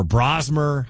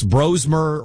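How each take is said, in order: First: Brosmer with an open "ah" in the first syllable; Brosmer, first vowel as in "bra"; alternative pronunciation guess. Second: Brosmer with a long "oh" in the first syllable; Brosmer, first vowel as in "rose"; first pronunciation guess. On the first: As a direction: say Brosmer as BRAHZ-mer. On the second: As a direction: say Brosmer as BROHZ-mer. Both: Shown as a demonstration. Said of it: "however you say his name".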